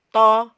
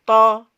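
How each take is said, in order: Both takes have the same delivery.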